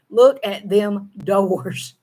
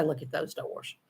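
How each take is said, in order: First: Them doors, slow Southern drawl. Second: Those doors whispered, proper grammar; whispered written version. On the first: Vlogger contrasting spoken Southern with written English. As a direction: say them doors slowly, the way she talks. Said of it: "If I wrote it". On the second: Vlogger whispering how she would write it. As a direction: whisper the correct written form. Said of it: "If I wrote it, I would say". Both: Shown as a demonstration.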